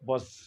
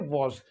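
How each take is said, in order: First: The vowel is a weak, reduced uh sound. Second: The vowel is a short rounded o sound. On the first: "American accent में इसे पढ़ते हैं वज।" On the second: "British accent में पढ़ते हैं वॉज।"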